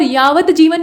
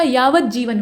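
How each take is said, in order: First: यावत जीवन said 'yaavat jeevan'; यावत with clear त. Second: यावत जीवन said slowly as 'yaavaj-jeevan'; यावत without त sound. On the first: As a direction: sound the t at the end of यावत. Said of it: "यावत जीवन नहीं होता". (यावत जीवन में 'त' का उच्चारण करें) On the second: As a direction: replace the t of यावत with a doubled j. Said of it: "त का उच्चारण ही नहीं होगा". (यावत जीवन को 'यावज्जीवन' बोलें) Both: Shown as a demonstration.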